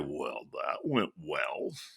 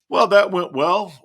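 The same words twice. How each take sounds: First: It is said sarcastically. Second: It is said sincerely.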